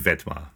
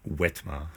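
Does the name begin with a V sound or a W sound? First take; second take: V sound; W sound. First: The name begins with a V sound. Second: The name begins with a W sound. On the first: The speaker calls it right. "can you pronounce it like it has a V?" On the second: The speaker calls it wrong. "Crazy Anglos with your wah"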